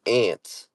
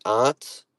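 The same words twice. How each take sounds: First: "aunt" said exactly like ant; short A of cat in "aunt"; bug pronunciation. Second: "aunt" with a broad AH; "aunt" rhyming with want; pronunciation choice. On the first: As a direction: say "aunt" like the insect. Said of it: "like a bug". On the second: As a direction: say "aunt" as ahnt. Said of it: "Do you pronounce it aunt". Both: Shown as a demonstration.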